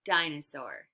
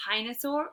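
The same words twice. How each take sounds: First: Said in the usual way. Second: 'hinosaur' with a breathy h in place of d; wrong first sound. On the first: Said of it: "d, d". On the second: Shown as a demonstration. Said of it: "Is it a".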